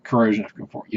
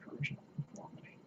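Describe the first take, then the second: First: Said in the usual way. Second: Barely audible, faster whisper. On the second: Real, not acted. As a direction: breathe it out quickly to yourself. Repeats it under his breath.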